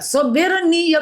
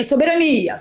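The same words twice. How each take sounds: First: High-pitched quoted catchword; Peter Turguniev. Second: Said in the usual way. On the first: Retold or imitated. Host borrowing her friend's word for sovereignty, lightly imitated. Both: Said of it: "como diz o meu amigo".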